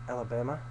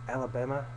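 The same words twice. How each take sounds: No difference in how they are said.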